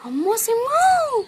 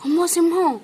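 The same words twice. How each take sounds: First: Higher, very slow drawn-out wail; imitating sister's cry. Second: Said in the usual way. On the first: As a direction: stretch it out like a little girl crying. (ఎత్తైన, చాలా నెమ్మదిగా సాగదీసిన ఏడుపు అనుకరణ) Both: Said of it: "చెల్లి ఎలా ఏడ్చిద్ది?".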